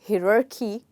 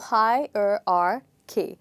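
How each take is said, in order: First: The first syllable sounds like 'hee'. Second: The first syllable sounds like 'high'. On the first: The speaker calls it wrong. "you might think H I might be, you know, he, which it is not" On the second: The speaker calls it right. "It's actually hi"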